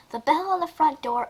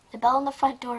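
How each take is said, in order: First: Higher-pitched story reading. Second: Said in the usual way. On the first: Shown as a demonstration. Starting to read the story aloud, in a higher reading voice. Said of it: "this is not a reading". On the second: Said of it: "it's just a reaction".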